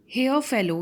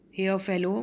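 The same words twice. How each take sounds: First: A louder, higher call to the fellow; cried out. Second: Said in the usual way. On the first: Acted. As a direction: call out sharply to the stranger. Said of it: "he cried". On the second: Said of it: "means sadhu".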